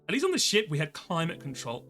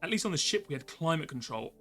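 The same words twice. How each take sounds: First: It is read in a California girl accent. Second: It is read in the speaker's plain voice.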